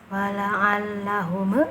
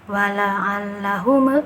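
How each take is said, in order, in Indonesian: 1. Huruf m di akhir dilepas dengan memantul. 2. Huruf m di akhir dilepas dengan memantul.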